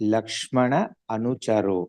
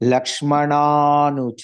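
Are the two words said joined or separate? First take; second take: separate; joined. First: The two words are said separately. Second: The two words are joined into one. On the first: "दो word join हो रहा है" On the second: "ऐसा है लक्ष्मणानुचरो"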